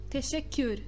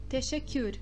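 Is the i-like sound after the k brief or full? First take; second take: brief; brief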